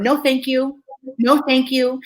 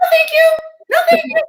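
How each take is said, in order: First: Kindly but firm, evenly said; kind, firm refusal. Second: Very high, chirpy mock politeness; high-pitched refusal. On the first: Shown as a demonstration. Showing an audience how she said no, kind and firm. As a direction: decline kindly and hold the line. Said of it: "I was really kind and very firm". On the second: Showing her only answer at first, high sing-out refusal. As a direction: refuse in a high, loud squeak.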